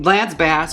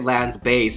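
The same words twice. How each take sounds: First: Bass is said with the vowel of gas. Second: Bass is said with the vowel of face. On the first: It is the ordinary name. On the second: It names his deep voice part in the group.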